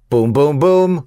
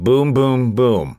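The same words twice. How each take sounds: First: The voice lilts up at the end. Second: The voice stays level at the end.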